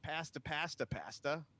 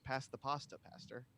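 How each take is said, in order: First: It is said in an attempted Boston accent. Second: It is said in a standard accent. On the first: "I don't think I did it as someone who sounds like they're from Boston" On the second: "of course"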